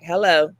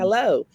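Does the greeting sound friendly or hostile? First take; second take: hostile; friendly. First: It sounds hostile, with an attitude. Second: It sounds friendly and easygoing.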